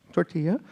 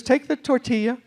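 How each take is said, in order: First: Tortilla said tor-TEE-uh with a lifted end; tortilla repeated. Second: Said in the usual way. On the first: Shown as a demonstration. Waitress teaching the word tortilla. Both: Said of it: "she says".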